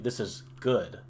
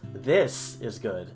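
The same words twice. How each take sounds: First: The stress falls on the word good. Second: The stress falls on the word this. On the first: The object is good rather than bad. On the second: This specific thing is the good one.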